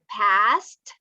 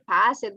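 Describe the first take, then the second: First: The word ends in a short t sound. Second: The ending is an extra unstressed syllable. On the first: The speaker calls it right. "It's like a t, t sound at the end" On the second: The speaker calls it wrong. "We don't say pass it"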